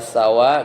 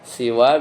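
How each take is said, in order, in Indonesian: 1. Vokal pertama adalah bunyi a. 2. Vokal pertama adalah bunyi i. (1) "seperti sama" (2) "seperti ridon"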